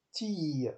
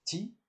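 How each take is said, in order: First: "ti" with a long held vowel; long, sustained "ti"; prolonged vowel. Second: "ti" with a brief vowel; short, unprolonged "ti"; short syllable. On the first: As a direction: stretch out the vowel of "ti". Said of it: "Donc c'est prolongé". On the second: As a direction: say "ti" short, without holding it. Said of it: "une question de syllabes courtes". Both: Shown as a demonstration.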